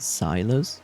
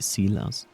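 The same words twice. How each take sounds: First: The name is said with an English pronunciation. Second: The name is said with a non-English pronunciation. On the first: "for English speakers, I wouldn't be surprised they would say Silas" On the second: "if I would say it in my native language, I would say Silas"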